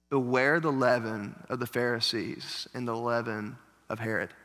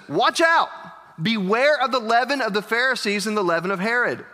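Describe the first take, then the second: First: Soft, low, hushed warning; quiet warning. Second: Urgent warning. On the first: Retold or imitated. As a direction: drop your voice and warn them gently. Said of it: "And Jesus is like". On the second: Acted. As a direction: cry out the warning as Jesus. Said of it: "And Jesus says".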